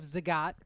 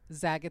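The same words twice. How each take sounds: First: It is said with the standard, usual pronunciation. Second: It is said with a deliberately altered pronunciation. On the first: "Instead of Zagat" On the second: "Zagat sounds better"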